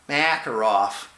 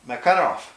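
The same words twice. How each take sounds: First: The stress is not on the middle syllable. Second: The stress is on the middle syllable. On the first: The speaker calls it wrong. "not Makarov" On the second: The speaker calls it right. "the Russians have their accent in the center of every word"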